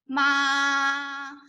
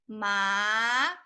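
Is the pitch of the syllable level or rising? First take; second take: level; rising. First: The pitch stays high and level. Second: The pitch rises from mid to high. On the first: "this is the first tone, a flat one" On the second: "the second tone is ma"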